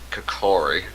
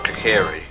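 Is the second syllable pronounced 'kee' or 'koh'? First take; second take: koh; kee. First: The second syllable has an 'oh' vowel. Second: The second syllable has an 'ee' vowel. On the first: The speaker calls it wrong. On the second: The speaker calls it right.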